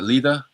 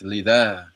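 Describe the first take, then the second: First: The vowel is said short. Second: The vowel is dragged out long. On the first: The speaker calls it wrong. "so it's not lida" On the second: The speaker calls it right. "I gotta drag out the aleph"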